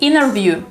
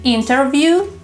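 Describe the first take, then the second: First: The T after N is dropped. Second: The T after N is clearly pronounced. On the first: The speaker calls it right. "the T disappears" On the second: The speaker calls it wrong. "instead of saying"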